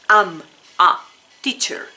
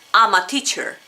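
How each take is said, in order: First: The words are said apart with breaks. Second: The words run together like one word. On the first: "muy distinto que si yo digo am, a, teacher" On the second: "como una sola palabra"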